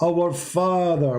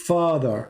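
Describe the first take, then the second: First: "our" drawn out slow and high, then "Father"; stress on our. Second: Said in the usual way. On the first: Shown as a demonstration. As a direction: lean hard on "our" in "our Father", very slowly.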